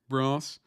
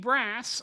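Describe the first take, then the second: First: It is said in the speaker's own British accent. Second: It is said in an exaggerated American accent. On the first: "I say brass" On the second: "a really bad American version of"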